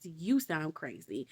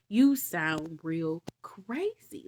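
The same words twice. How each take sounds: First: Said in the usual way. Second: Slow whispered put-down. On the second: Acted. Jesus telling the Pharisee he sounds crazy, slow whisper. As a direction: whisper the insult slowly.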